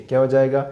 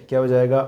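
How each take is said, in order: The two takes are said the same way.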